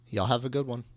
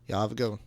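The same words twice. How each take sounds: First: It is said slowly and clearly. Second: It is said fast and slurred.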